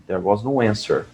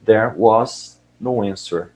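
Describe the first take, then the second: First: Said in the usual way. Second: There was no answer, said very slowly, each word spaced out; slowed for learners. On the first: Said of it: "Aí ele fala". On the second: Shown as a demonstration. Teacher repeating the audio line for students, very slow. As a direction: spell it out slowly for the class. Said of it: "Então".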